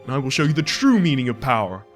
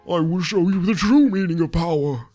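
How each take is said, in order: First: It is said in his normal voice. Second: It is said in an anime old man voice.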